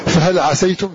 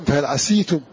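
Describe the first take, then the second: First: عسيتم with open a on the sin: ʕasaytum; fatha on the sin. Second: عسيتم with i on the sin: ʕasītum; kasra on the sin. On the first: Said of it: "قرأ الباقون بفتح". (فهل عسيتم بفتح السين) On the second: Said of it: "فتقرأ بكسر السين". (فهل عسيتم بكسر السين) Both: Shown as a demonstration.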